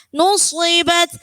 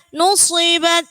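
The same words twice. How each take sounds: The two takes are said the same way.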